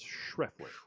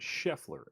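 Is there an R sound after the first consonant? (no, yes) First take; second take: yes; no. First: It is said with an R sound. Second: It is said without an R sound. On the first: The speaker calls it right. "It's Schreffler" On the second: The speaker calls it wrong. "It's not Scheffler"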